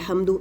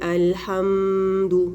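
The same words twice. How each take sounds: First: The m sound is rushed and barely held. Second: The m sound is stretched out with extra nasality. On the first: "बहुत जल्दी अल्हम्दु ऐसे भी नहीं पढ़ना, ये मीम अदा ही नहीं हुआ" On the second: "लेकिन इतना लंबा नहीं करना"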